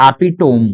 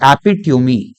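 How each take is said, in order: First: एपिटोम in three syllables, "api-tome"; common misreading. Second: एपिट्यूमी in four syllables, "api-tyoo-mee"; correct pronunciation. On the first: Teacher quotes how readers say it, एपिटोम as api-tome. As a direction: end एपिटोम on "tome", silent final e. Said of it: "पढ़ने वाले इसको बोलते हैं". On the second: Teacher corrects the students' reading, एपिट्यूमी as api-tyoo-mee. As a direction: end एपिट्यूमी on a sounded mee, pitched lower. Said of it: "correct pronunciation है". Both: Shown as a demonstration.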